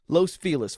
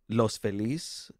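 First: The name is said with an English pronunciation. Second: The name is said with a Spanish pronunciation. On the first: The speaker calls it wrong. "it's incorrect Spanish" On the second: The speaker calls it right. "The correct Spanish would be"

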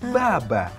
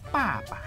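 First: It begins with a voiced B sound. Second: It begins with a voiceless P sound. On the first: The speaker calls it wrong. "wajar kalau salah" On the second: The speaker calls it right. "Yang benar papa"

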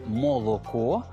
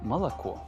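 First: The unstressed vowels sound like a clear o. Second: The unstressed vowels sound like a. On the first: This is how the word is written. "Пишуть «молоко»" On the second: This is how the word is actually pronounced. "а вимовляють «молоко»"

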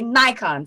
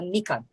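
First: It is pronounced the American way. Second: It is pronounced the Japanese way. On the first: "for Americans, you say Nikon" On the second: "For us here in Japan, we say Nikon"

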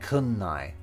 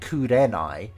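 First: The re is shortened into an n sound. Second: The word is said in full with re. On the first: "he's just saying kunnai" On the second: "instead of saying kurenai"

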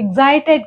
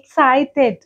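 First: The middle consonants are voiced, like 'gz'. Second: The middle consonants are voiceless, like 'ks'. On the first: The speaker calls it wrong. "ఎగ్జైటెడ్ కాదు" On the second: The speaker calls it right. "ఎక్సైటెడ్ అని చెప్పాలి"

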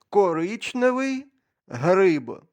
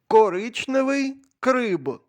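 First: The last word begins with a G sound. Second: The last word begins with a K sound. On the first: The speaker calls it right. "як правильно" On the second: The speaker calls it wrong. "Я знову помилився?"

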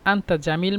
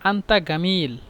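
First: The second word begins with a j sound. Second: The second word begins with a hard g sound. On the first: "আপনি বলতে পারেন আন্তা জামিল" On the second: "জিমকে মিশরীরা গয়েন উচ্চারণ করে"

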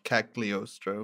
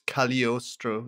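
First: The middle has a hard G sound. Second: The middle has no hard G sound. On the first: The speaker calls it wrong. "not Cagliostro" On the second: The speaker calls it right. "the like Italian pronunciation of the GL"

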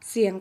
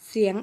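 The two takes are said the same way.

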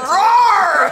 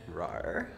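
First: It is said boldly, with confidence. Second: It is said timidly, without confidence.

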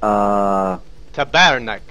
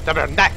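First: The stress is on the middle syllable. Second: The stress is on the third syllable. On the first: The speaker calls it wrong. "It's the middle one, right?" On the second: The speaker calls it right. "Third one"

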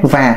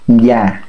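First: The word starts with a clear buzzing v. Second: The word starts with a lip-rounded y sound. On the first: The speaker calls it wrong. "nó chặt lắc, à nó không có trúng người Nam Kỳ" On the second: The speaker calls it right. "phải mím môi lại"

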